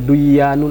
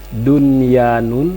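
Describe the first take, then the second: First: The n merges into the following y sound. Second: The n is pronounced clearly before the y. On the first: The speaker calls it wrong. "tidak boleh duyanun" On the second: The speaker calls it right. "Karena satu kalimat dia itu"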